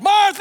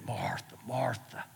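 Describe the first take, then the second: First: The name is yelled loudly. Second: The name is said calmly and softly.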